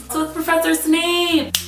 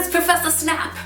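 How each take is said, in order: First: The name has a long 'a', like snape. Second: The name has a short 'a', like snap. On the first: The speaker calls it right. "There's an E on the end" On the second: The speaker calls it wrong. "the best one was when they're like"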